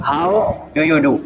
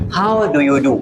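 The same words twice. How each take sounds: First: Very slow "How do you do" drawn out word by word; slow accent demo. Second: "How do you do" in a Pakistani accent, d crisp; plain Pakistani English way. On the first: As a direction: stretch each word out slowly. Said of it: "But गोरे इसे किसे, कैसे बोलते हैं". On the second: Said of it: "Pakistani accent में". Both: Shown as a demonstration.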